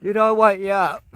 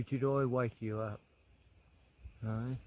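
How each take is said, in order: First: The same question said out loud and bright; louder, cheerful call. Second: Softly, almost under the breath; soft murmur. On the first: Asking the koala again, now a cheerful louder call. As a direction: call it out to rouse him. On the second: To the dozing koala, a soft murmured question. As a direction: ask gently so as not to startle him. Gently asking a sleepy koala. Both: Real, not acted.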